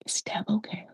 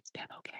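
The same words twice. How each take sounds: First: Very soft acted aside; small, quiet voice; hushed question. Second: Barely audible whisper; faint, breath-only repeat; whispered question. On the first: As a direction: ask it softly, under the breath. Acted hushed question about Deb. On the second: Acted. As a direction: whisper it as a secret aside.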